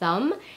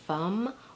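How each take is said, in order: First: The word begins with a soft th sound. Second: The word begins with an f sound. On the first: "the sound, as in the word thumb" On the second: "gets mispronounced as an F"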